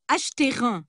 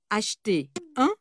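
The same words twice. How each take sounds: First: A linking sound joins acheter and un. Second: Acheter and un are not linked. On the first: The speaker calls it wrong. "Trois liaisons interdites" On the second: The speaker calls it right.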